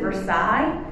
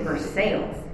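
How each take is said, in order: First: It is said in the nonlocal way. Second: It is said in the local Kentucky way. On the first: The speaker calls it wrong. "Siri will tell you it's Versailles. It is not" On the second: The speaker calls it right. "It is Versailles"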